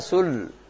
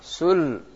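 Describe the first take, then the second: Both takes have the same delivery.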